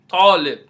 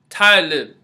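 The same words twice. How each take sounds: First: The first consonant is the heavier Arabic T. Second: The first consonant is a plain English T. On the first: The speaker calls it right. "It really should be pronounced Talib" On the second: The speaker calls it wrong. "you hear people say Talib"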